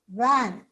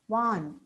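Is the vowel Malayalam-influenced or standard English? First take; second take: standard; Malayalam-influenced. First: The vowel is the standard English short a. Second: The vowel is replaced by a Malayalam substitute. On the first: "look at these words" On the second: "those with uh, Malayalam as a mother, mother tongue may tend to pronounce these words as"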